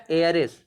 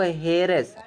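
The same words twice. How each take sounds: First: एयर्स begun straight on the vowel; silent H. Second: हेयर्स with an audible H at the front; sounded H. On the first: Teacher correcting the example word to vowel-first एयर्स, silent H. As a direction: drop the H from एयर्स. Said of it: "इसको हम एयर पढ़ते हैं". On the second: Teacher reading the next example word, H-first हेयर्स. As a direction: start हेयर्स on a clear H. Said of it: "हेयर नहीं पढ़ते हैं". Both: Shown as a demonstration.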